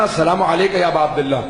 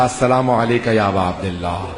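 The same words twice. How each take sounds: First: Said in the usual way. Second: Trembling greeting. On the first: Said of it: "جیسے میں نے کہا نا". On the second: Acted. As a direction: greet the Imam, trembling with exhaustion, down low. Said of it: "کانپتا ہوا میں نے کہا". (زیارت کرنے والا تھکا ہوا بیٹا، لرزتی دھیمی آواز میں سلام)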